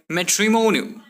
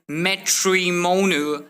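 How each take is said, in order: First: "matrimonial" joined up with a softened T. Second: "matrimonial" slowly split with a clear T; hard T. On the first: Teacher showing better flow, softened T in "matrimonial". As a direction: run "matrimonial" together as madrimonial. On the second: Teacher showing what to avoid, hard T in "matrimonial". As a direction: break "matrimonial" into separate syllables. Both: Shown as a demonstration. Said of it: "replace T with D".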